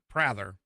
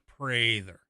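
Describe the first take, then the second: First: The A is said as a short vowel. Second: The A is said as a long vowel. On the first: The speaker calls it wrong. "Not Prather" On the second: The speaker calls it right. "it's a long A"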